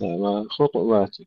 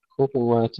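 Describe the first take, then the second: First: وخطوات said khutwat, ط bounced without a vowel; still ta. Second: خطوات said khutuwat, u after ط; voweled ta. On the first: Teacher showing the other reading, vowelless ta in وخطوات. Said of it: "يقرؤون الطاء بالسكون". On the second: Teacher separating two readings, full vowel in خطوات. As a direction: give ط a clear u in خطوات. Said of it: "ننتبه ونميز". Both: Shown as a demonstration.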